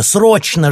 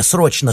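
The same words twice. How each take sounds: First: Срочно repeated much higher and louder, a near scream. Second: Said in the usual way. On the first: A narrator's reading. Alla repeats the word to her sister, cry. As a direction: push the second срочно up to a cry. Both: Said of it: "ломано выговорила Алла".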